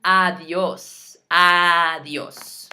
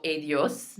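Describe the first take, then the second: First: Adios with a loud, open AH at the start; Spanish adios, ah-DYOHS, first vowel leaned on; correct adios. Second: Adios starting with an English AY; English long A opening adios; wrong adios. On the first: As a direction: stretch the opening AH of adios. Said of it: "notice it doesn't go". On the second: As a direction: say adios as ay-dee-OHS. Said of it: "it doesn't go". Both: Shown as a demonstration.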